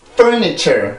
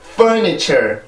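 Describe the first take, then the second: Both takes have the same delivery.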